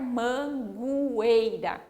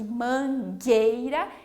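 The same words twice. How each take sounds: First: The U is sounded after the G. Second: The U is silent after the G. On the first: The speaker calls it wrong. "Nós não vamos falar mangueira" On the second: The speaker calls it right. "eu uno essas letras para fazer o G"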